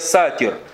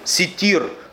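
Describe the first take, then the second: First: The first vowel is an a sound. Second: The first vowel is an i sound. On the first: The speaker calls it wrong. "некоторые говорят, я сатир. Сатир — это не имя Аллаха" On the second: The speaker calls it right. "Одно из имен Аллаха Субханаху Ва Тааля — ситир"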